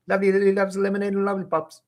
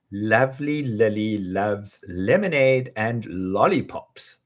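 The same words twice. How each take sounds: First: High, rushed race through the twister; very fast. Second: Slow, careful first take; slowly. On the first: Teacher showing off top speed. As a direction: fire it off as fast as possible. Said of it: "fastest take". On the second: Teacher modelling the twister slowly. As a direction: ease through each L. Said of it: "slow first take". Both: Shown as a demonstration.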